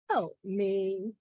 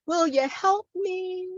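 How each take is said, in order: First: Softened plea. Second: High, sustained poetic plea; performed plea. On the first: Poet repeating the plea for help, hushed. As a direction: let "help me" drop to a quiet appeal. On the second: Poet pleading for help within the poem, high-voiced. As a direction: lift "help me" high, as a recited appeal. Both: Acted.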